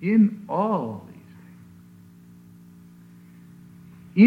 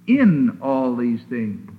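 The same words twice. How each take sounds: First: All drawn out and stressed, slow, long pause before things; slow preacher's stress on all. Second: In punched hard, slow and deliberate; slow preacher's stress on In. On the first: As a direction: hold the word all and let it ring. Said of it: "emphasize the word all". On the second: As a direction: lean on the word In, then let the rest fall. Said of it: "emphasize the word in". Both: Shown as a demonstration.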